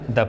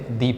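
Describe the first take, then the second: First: The vowel is short, like 'thuh'. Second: The vowel is long, like 'thee'. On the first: The next word starts with a consonant. "कुछ शब्द वो consonant से प्रारंभ होते हैं और उसके सामने यदि टी एच ई लिखा है तो उसको द पढ़ते हैं" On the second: The next word starts with a vowel. "यदि कोई भी शब्द वावेल से प्रारंभ है और उसके सामने यदि टी एच ई लिखा हुआ है तो उसको दी पढ़ा जाता है"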